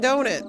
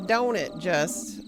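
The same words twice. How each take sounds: First: Said in the usual way. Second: Slow drawn-out Don't it, just; drawled folksy. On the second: Shown as a demonstration. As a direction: stretch it out, folksy.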